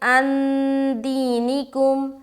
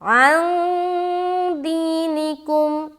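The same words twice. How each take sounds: First: The n is fully sounded with a held nasal. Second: The n is hidden, voiced softly through the nose. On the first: The speaker calls it wrong. "ये इख्फा नहीं हुआ... गुन्ना हो गया" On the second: The speaker calls it right. "तो यहाँ पर हम बोलेंगे"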